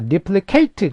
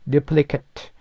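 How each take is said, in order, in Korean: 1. 마지막 음절은 'eight'처럼 들려요. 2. 마지막 음절은 'it'처럼 들려요. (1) "eight라고 발음하면은 동사고" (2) "it, a 이렇게 발음하면 형용사나 명사가 되죠"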